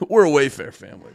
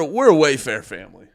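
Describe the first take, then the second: First: "We're a Wayfair family" said fast through a laugh; laughing repeat. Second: Said in the usual way. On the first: Shown as a demonstration. Streamer repeats his own joke to viewers, laughing.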